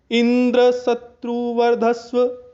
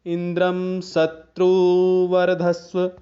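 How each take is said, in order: First: Indra held high and strong at the start of a slow chant; udatta accent at the beginning. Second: इंद्रम शत्रुवर्धस्व chanted slowly, udatta accent toward the end. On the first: Teacher showing accent shift onto Indra, chanted high and slow. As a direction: chant Indra शत्रु वर्धस्व slowly on a raised tone, accenting Indra. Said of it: "अगर इस तरह से बोलें". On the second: Teacher showing Vedic end accent, chanted slowly with udatta at the end. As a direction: draw out इंद्रम शत्रुवर्धस्व on a level tone, accent late in the compound. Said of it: "यदि इसका प्रयोग ऐसे किया जाए".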